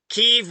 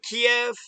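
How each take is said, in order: First: The word is said with one syllable. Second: The word is said with two syllables.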